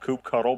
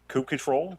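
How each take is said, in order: First: The second part sounds like 'cuddle'. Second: The second part sounds like 'control'. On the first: The speaker calls it wrong. "Some people call it Kube Cuddle" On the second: The speaker calls it right. "Kube Control is the uh, appropriate uh, pronunciation"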